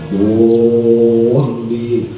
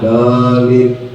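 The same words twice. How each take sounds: First: The word is pronounced very heavy and thick. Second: The word is pronounced very light and thin. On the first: "Ada yang ada yang berat banget" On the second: "Ada yang ringan banget"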